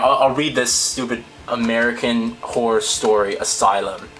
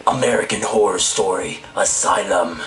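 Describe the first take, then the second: First: Said in the usual way. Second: Lower, rough character read; gruff villain voice. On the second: Shown as a demonstration. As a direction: growl the title like a horror villain. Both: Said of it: "That's a hard voice to do".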